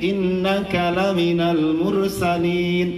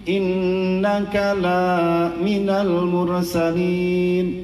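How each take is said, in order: First: The vowel after the l is short. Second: The vowel after the l is long. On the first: The verse says he is one of the messengers. The speaker calls it right. "Lamnya nggak dibaca panjang tapi dibacanya pendek" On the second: The verse says he is not one of the messengers. The speaker calls it wrong. "Tetapi kalau kita bacanya kayak gini, itu jadi jauh artinya"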